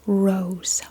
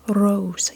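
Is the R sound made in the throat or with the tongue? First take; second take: tongue; tongue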